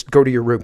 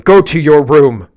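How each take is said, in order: First: Said in the usual way. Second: Loud, slow, bossy parent voice; louder, slower mock command; mock stern parent order. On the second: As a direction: bark it like a parent sending a kid off. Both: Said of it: "as if I told you to".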